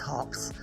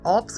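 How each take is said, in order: First: The word starts with a clear h sound. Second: The word starts with a vowel, no h. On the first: The speaker calls it right. "it's really pronounced hops" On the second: The speaker calls it wrong. "It's not ops or whatever"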